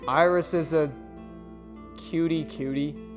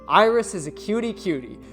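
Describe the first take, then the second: First: It is said flatly, without feeling. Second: It is said warmly, with real feeling.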